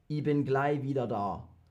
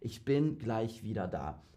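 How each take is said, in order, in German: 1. Es wird im schwäbischen Dialekt gesprochen. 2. Es wird auf Hochdeutsch gesprochen. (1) "Here it is in Schwäbisch" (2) "So this is Hochdeutsch"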